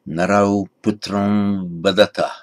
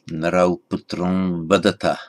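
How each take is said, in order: The two takes are said the same way.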